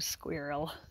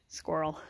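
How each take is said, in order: First: It is said in a non-American way. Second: It is said the American way. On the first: "We don't do squirrel" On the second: "that's how Americans say squirrel"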